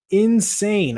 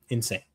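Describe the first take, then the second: First: Insane. said much higher and louder, drawn out; excited insane. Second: Quiet insane. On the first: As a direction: burst out with Insane. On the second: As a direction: drop the voice on Insane. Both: Real, not acted.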